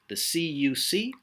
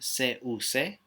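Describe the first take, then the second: First: The letters are spoken with English letter names. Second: The letters are spoken with Spanish letter names.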